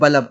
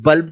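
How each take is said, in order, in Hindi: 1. यह शब्द का गांव वाला उच्चारण है। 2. यह शब्द का मानक उच्चारण है। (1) "गांव में काफी सारे लोग बोल देते हैं बल्ब" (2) "बल्ब को"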